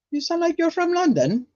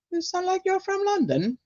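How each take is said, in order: First: A London-sounding British accent, pitched well up. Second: High, soft London-style British accent; a second go at a British accent; British accent attempt. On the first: Reading a viewer's line aloud in a high British accent. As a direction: put on a quick British accent. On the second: Trying the British accent again for chat. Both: Shown as a demonstration. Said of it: "My British accent".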